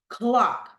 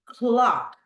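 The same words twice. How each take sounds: The two takes are said the same way.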